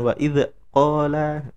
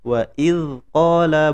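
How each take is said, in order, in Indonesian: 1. Bunyi dz dilepas dengan sedikit mantulan. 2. Bunyi dz ditahan diam tanpa mantulan.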